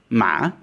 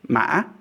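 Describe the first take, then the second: First: The pitch dips and rises like a question. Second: The pitch breaks in the middle like a hiccup. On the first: It means a grave. "this is the questioning tone" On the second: It means code. "I'm calling this the hiccup tone"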